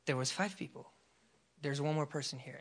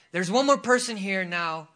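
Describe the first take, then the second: First: Soft, low inner prompting; hushed, understated voice of God; still small voice. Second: Louder call to the room; preacher calling someone out; loud proclamation. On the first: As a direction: quote God quietly and evenly. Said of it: "just a still small voice". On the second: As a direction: announce it out to a crowd. Relays God's word aloud to the congregation. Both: Retold or imitated.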